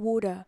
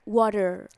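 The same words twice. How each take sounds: First: It is said in an Australian accent. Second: It is said in an American accent. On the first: "Australian accent itu biasanya mereka bilangnya water" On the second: "Kalau American itu water"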